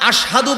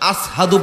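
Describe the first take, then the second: First: The word is said with an 'sh' sound. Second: The word is said with an 's' sound. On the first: This is the correct form he could not manage. The speaker calls it right. "হযরতে বেলাল আশহাদু বলতে পারতেন না" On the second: This is how he actually said it. The speaker calls it wrong. "আসহাদু বলতেন"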